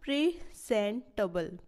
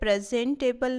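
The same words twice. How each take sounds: First: The stress is on the first syllable. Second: The stress is not on the first syllable. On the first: The speaker calls it right. "Pre pre पे stress दिया जाएगा" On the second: The speaker calls it wrong. "यहाँ पे presentable नहीं है"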